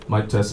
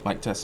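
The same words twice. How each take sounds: First: The amplified voice is clearly audible through speakers. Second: The amplified voice is barely audible through speakers. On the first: The speaker calls it right. "Back to mic" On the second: The speaker calls it wrong. "It doesn't even work anymore"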